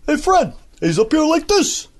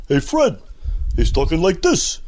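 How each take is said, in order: First: High, bouncy Carney-style sidekick; higher Art Carney. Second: Lightly voiced cartoon sidekick; a hint of the Barney voice; Barney Rubble. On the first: Retold or imitated. Showing his high Barney Rubble version. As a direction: lift it up into a cheery sidekick. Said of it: "a higher version, you know, like this". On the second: Mel imitating his take on Barney. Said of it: "the voice that you get as Barney Rubble".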